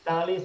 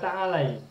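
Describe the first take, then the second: First: The word ends with a plain 'ee' sound. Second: The word ends with an 'eye' diphthong. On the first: The speaker calls it wrong. "Ta'ali salah" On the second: The speaker calls it right. "Yang betul adalah ta'alai"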